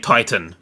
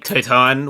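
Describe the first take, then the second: First: It is said with English-style vowels. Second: It is said with Japanese-style vowels. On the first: "where we would say Titan" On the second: "Like it'd be Titan"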